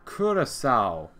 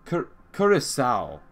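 First: The name is said like 'Curacao'. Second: The same.

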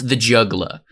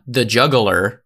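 First: The word ends with an 'ah' sound. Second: The word ends with an 'er' sound. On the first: It names the stylized song title. The speaker calls it right. "it's J-U-G-G-L-A, it's juggla" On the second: It names a person who juggles. The speaker calls it wrong. "it's not the juggler"

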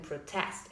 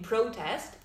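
First: The stress is on the second syllable. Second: The stress is on the first syllable. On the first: It is used as a verb. "the verbs the second" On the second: It is used as a noun. "Nouns usually have the first syllable stressed"

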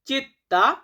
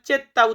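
First: The first vowel sounds like 'ee'. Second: The first vowel sounds like 'eh'. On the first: "Italian শব্দ চিত্তা মানে হচ্ছে শহর।" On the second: "অনেক ক্ষেত্রে এটাকে আমরা চেত্তা উচ্চারণ করি।"

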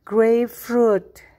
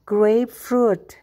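No difference in how they are said.

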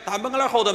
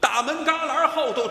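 First: The words are slurred and run together indistinctly. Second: Every word is articulated distinctly and clearly. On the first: The speaker calls it wrong. "一点都不清楚" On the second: The speaker calls it right. "每个字都清楚啊"

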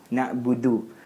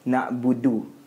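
Both takes have the same delivery.

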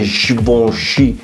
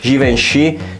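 First: The name is pronounced with a foreign sound. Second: The name is pronounced with an Italian sound. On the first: The speaker wants to seem more stylish. The speaker calls it wrong. "vi pensate che siete più fighi se dite Givenchy" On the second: The speaker stays true to Italian culture. The speaker calls it right. "quando potete dire Givenchy"

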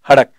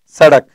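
First: The word begins with an h sound. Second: The word begins with an s sound. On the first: This is the regional form shaped by Persian influence. "ये सड़क का उच्चारण आज भी किसमें करेंगे? हड़क बोलेंगे।" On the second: This is the standard form of the word. "यहां के लोगों को आप कहो सड़क"

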